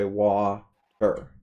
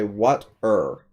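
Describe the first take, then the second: First: "wa-er" drawn out, first syllable left open; split as wa-er. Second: "what-er" broken after the T, slowly; split as what-er. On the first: Tutor shows a student how we say it, "wa-er" in two slow syllables. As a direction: say "wa-er" very slowly, "wa" ending on the vowel. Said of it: "that's not how we say it". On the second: Tutor shows a student the other way, "what-er" split after T. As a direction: say "what-er" with the T closing the first syllable. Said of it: "pronounce it the other way". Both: Shown as a demonstration.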